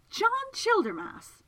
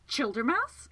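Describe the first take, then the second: First: Very high, loud, drawn-out cry of the name; astonished exclamation. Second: Higher, rising question full of outrage; outraged demand. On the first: Miss Absalom recognises the man crashed on her floor, exclaiming. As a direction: exclaim it slowly, pitch leaping up. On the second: Segundus finds Childermas fallen into his dream, outraged. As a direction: demand it, pitch lifting in affront. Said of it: "Segundus demanded, outraged". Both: Acted.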